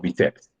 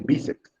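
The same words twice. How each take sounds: First: The stress is on the last syllable. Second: The stress is on the first syllable. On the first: The speaker calls it wrong. "Se dice bíceps o bíceps" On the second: The speaker calls it right. "Dice bíceps. Entonces, esa sílaba bi tiene que llevar tilde"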